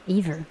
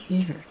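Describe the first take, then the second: No difference in how they are said.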